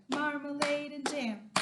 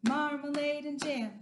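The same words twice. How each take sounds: No difference in how they are said.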